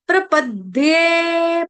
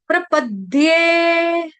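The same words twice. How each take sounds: The two takes are said the same way.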